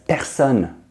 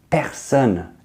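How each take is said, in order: No difference in how they are said.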